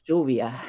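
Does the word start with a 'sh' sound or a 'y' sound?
sh. The first sound is a 'sh' sound. "we pronounce it lluvia"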